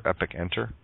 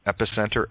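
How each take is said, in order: First: "epic enter" with a clear break between epic and enter; epic, then enter, lower and softer; split into two words. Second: Said in the usual way. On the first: Shown as a demonstration. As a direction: pull the word apart to reveal epic enter. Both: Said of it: "the below center becomes the epic enter".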